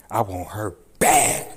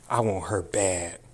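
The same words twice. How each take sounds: First: I want her bad said louder and slower, stress on bad; louder outburst. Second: Said in the usual way. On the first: Real, not acted. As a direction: hit bad hard with rising force. Furious rant at the judge.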